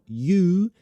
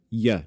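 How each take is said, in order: First: The vowel is a full, clear oo sound. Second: The vowel is reduced to a weak schwa. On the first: The speaker calls it wrong. "not you" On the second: The speaker calls it right. "That's a schwa. Can ya, ya"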